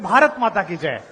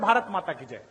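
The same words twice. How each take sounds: First: It is said loudly. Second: It is said quietly.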